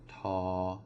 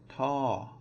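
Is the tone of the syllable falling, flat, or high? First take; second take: flat; falling. First: The syllable is said on a level pitch. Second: The syllable's pitch drops from high to low. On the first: "it's going to be a flat tone" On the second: "then it is going to be a falling tone"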